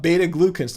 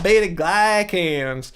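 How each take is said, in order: First: "glucans" as GLUE-kans; correct pronunciation. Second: Slow, exaggerated "glycans" as GLY-kans; mock mispronunciation. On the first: Shown as a demonstration. Streamer saying the expert's version, "glucans" with oo. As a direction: clear oo in "glucans". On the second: Streamer mocking the error, drawn-out "glycans" with eye vowel. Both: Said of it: "not beta glycans".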